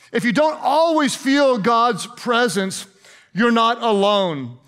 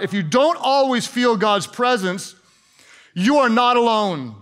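First: Slowly, word by word; slow right down to drive it home; slow emphatic repeat. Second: Said in the usual way. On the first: Shown as a demonstration. Key point repeated slowly for emphasis.

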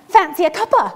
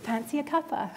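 First: Higher, louder Scottish granny offering tea; cheeky Scottish gran popping up; Scottish accent, playful and loud; Scottish grandma. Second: Softer tender Scottish granny; fond, quiet memory of her offer; softly, with a hint of Scottish; gentle recall. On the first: Retold or imitated. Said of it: "And she's like". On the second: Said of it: "my grandmother was able to say".

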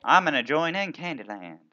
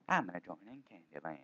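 First: Said in the usual way. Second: Softer, lower repeat of I'm gonna join in Candyland; quiet repeat. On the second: Shown as a demonstration. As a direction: mutter it again under your breath. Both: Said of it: "repeats line softly".

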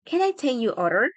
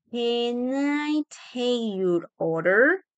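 First: Said in the usual way. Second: Very slow, drawn-out question, rising on "order"; slow teaching pronunciation, word by word; slow model. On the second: Shown as a demonstration. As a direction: stretch every word for learners. Teacher models phrase slowly.

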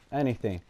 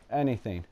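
The two takes are said the same way.

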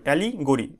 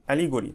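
First: "allegory" in two distinct parts, ali - gori; broken into parts. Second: Said in the usual way. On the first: Shown as a demonstration. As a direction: separate "allegory" briefly in the middle, to teach it. ("Allegory" দুই ভাগে উচ্চারণ) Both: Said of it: "এইভাবে উচ্চারণ করবে".

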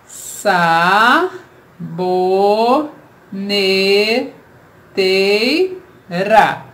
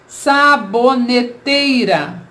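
First: "Saboneteira" split as sa... bo... ne... tei... ra; extremely slow five-piece "Saboneteira"; syllable by syllable. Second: "Saboneteira" said slowly, all joined up; slow, clear, unbroken "Saboneteira"; careful whole word. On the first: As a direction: stretch each syllable of "Saboneteira", long pauses between. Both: Shown as a demonstration. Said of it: "Vamos separar em sílabas".

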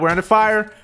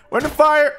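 First: Said in the usual way. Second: Higher-pitched repeated warning shout; alarmed. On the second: Real, not acted. Gamer warning team under fire, alarmed.

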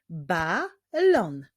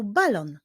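First: "Balon" split into Ba, lon with a clear gap; syllable by syllable. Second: Said in the usual way. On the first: Shown as a demonstration. Teacher clapping out a word for young readers, "Balon" in separated syllables. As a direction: clap out "Balon" in two separate beats. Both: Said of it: "Wyklaszczmy sylaby w tych wyrazach".

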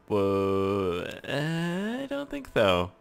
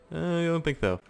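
First: Very slow, drawn-out skeptical no; drawn-out doubt. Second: Quick higher dismissive no; higher doubt. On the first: Gamer answering his own idea, very slow and doubtful. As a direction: stretch each word out doubtfully. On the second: Gamer repeating his doubt, higher and brisk. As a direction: toss it off lightly up high. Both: Shown as a demonstration.

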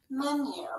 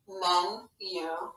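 First: Said in the usual way. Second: "Men-u" said slowly in two separate beats, a break between Men and u; "Men-u" pulled apart into two distinct syllables; split into syllables. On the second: Shown as a demonstration. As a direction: tap out "Men-u" syllable by syllable with a clear gap. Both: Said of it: "First syllable is, and the second syllable".

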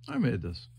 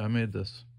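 First: I made said with I stressed. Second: Made said a bit stronger than the rest; stress on made. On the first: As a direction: lean on the word I. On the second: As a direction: lean on the word made. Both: Shown as a demonstration.

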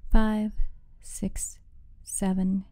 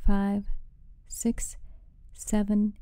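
Both takes have the same delivery.

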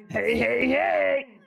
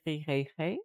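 First: Raised, breathless hey hey hey for air; gasping hey. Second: Soft hey. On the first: Streamer jokes her scar makes her gasp, breathless. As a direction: jokingly gasp the heys like a tic. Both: Shown as a demonstration. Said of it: "Cada cierto tiempo tengo que decir".

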